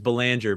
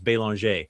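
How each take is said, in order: First: The name is pronounced the English way. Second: The name is pronounced the French way. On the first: "my last name is" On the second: "the proper French pronunciation"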